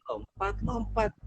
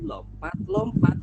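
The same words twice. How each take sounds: First: Falling singsong. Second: High, slow, hopping lilt; bouncy singsong. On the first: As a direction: let the hop land softly. (lompat-lompat dengan nada turun pelan) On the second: (lompat-lompat dengan nada naik riang) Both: A narrator's reading. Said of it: "Sambil apa tadi?".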